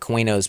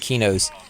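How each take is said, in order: First: The name begins with a KW sound. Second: The name begins with a plain K sound. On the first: This is how the players guessed it back then. "we always called it Quenos back then" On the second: This is how the game's makers say it. "I think the game developers pronounce it Kinos"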